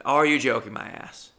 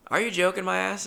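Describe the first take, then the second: First: Said in the usual way. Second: Higher, bouncy catchphrase delivery; catchphrase in character. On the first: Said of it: "just say it". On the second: Shown as a demonstration. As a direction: toss the catchphrase out proudly. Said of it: "it rolls off the tongue".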